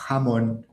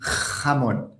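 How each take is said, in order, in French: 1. Le son j est doux et léger. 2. Le son j est fort et guttural. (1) "dans les pays d'Amérique latine, il est beaucoup plus doux" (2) "en Espagne, c'est un peu plus fort"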